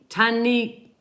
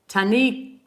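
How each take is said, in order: The two takes are said the same way.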